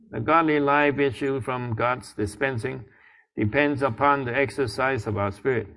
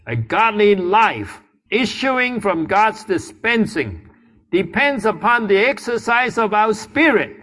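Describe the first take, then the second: First: It is read flatly, without energy. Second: It is read with lively, spirited energy.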